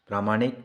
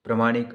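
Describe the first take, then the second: First: प्रामाणिक with a long aa after pr, praa-maa-nik; correct pronunciation. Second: प्रमाणिक with a short a after pr, pra-maa-nik; wrong pronunciation. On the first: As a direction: say प्रामाणिक properly, stretching the aa after pr. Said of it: "शुद्ध है". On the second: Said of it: "अशुद्ध है". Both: Shown as a demonstration.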